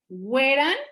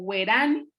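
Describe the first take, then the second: First: The stress is on the first syllable. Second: The stress is on the second syllable.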